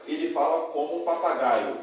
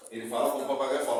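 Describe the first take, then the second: First: Said in the usual way. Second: Fast, the added fala at the end; final fala added. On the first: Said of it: "Não posso colocar no final esse". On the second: Shown as a demonstration. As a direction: ele fala como um papagaio "fala" rushed out quickly. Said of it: "Não posso colocar no final esse, esse verbo ainda fala?". (frase dita rápido, com o "fala" no final em destaque)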